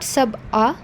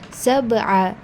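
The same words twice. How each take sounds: First: The middle consonant is said without the ayn sound. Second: The middle consonant is said with the ayn sound. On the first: The speaker calls it wrong. "It is not sab'a" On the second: The speaker calls it right. "because ayn is present over there"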